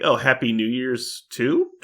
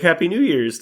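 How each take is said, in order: First: Slow, rising question on "too"; mock-puzzled greeting, "too" lifted high. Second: High, loud greeting without a question; bright-pitched, loud well-wishing; cheerful retold greeting. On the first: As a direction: drag "too" upward as a doubtful question. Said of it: "Like, question mark?". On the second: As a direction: call out a happy greeting. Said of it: "I was like".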